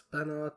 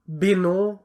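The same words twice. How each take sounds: First: Said in the usual way. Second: "beno" ending on an open oh; silent final t. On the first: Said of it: "I mean, this is pronounced like". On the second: Shown as a demonstration. Showing how the candidate is pronounced, "beno" ending on oh. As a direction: say "beno" with no t at the end. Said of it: "this is pronounced like".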